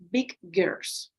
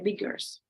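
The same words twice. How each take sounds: First: The g sound is pronounced twice, separately. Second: The two g sounds merge into one. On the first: The speaker calls it wrong. "do not say the sound, the sound twice. Okay, so you don't say big girls" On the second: The speaker calls it right. "you say big girls ... It goes together"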